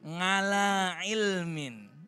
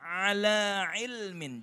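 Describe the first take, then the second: First: The first word starts with a nasal 'ng' sound. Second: The first word starts with a throat sound. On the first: The speaker calls it wrong. "masih logatnya kental, ain itu jadi nga" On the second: The speaker calls it right. "tapi sebenarnya ain di situ adalah ala ilmin"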